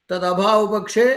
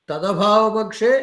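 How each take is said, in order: The two takes are said the same way.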